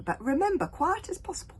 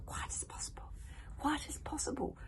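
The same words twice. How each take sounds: First: Higher, louder reminder; coaxing boy. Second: Soft whispered repeat; hogfly copying in a hush; good-natured whisper. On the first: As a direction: remind him kindly. Hiccup hushing hogfly. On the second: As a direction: whisper it back happily. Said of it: "repeated the hogfly good-naturedly". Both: Acted.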